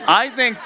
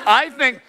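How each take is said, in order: Both takes have the same delivery.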